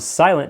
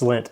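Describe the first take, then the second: First: The name is said with two syllables. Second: The name is said with one syllable.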